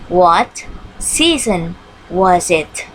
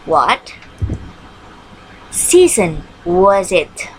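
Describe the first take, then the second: First: What season was it, again drawn out and slow; slow repeat for the class. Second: What season was it, said slowly with a pause after What; drawn out for the class to copy; slow model question. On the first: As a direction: repeat it slowly for the pupils. (diulang pelan) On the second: (pertanyaan dibaca pelan) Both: Shown as a demonstration. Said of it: "question word what".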